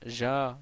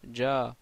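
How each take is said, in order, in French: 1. L'air passe par un petit espace, ce qui donne un 'zh' sonore. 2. La langue se ferme complètement, ce qui donne un son 'dj' occlusif. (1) "l'erreur ... c'est le fait de dire ja ... laissent l'espace ... Mais ça c'est faux" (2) "le son ne pourra pas passer entre le palais dur et la langue. Donc ça fait adj, ja"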